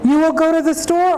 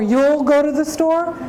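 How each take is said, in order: First: "You will" is said as two full words. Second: "You will" is contracted into one syllable. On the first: "say you will"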